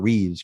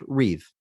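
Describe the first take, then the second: First: The name ends with an s sound. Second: The name ends without an s sound. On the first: The speaker calls it wrong. "the amount of times I've heard Christopher Reeves" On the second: The speaker calls it right. "it's just Reeve"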